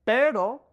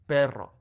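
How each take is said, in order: First: Pero with one quick r flick; single tap R. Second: Perro with a full rolled trill; rolled double R. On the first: Teacher contrasting the single R with the double. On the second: Teacher contrasting the double R with the single. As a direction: roll the rr in perro. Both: Shown as a demonstration. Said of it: "So we have".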